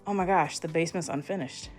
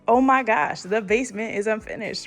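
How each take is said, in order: First: It sounds disappointed and dismayed. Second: It sounds excited and delighted.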